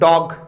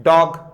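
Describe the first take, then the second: No difference in how they are said.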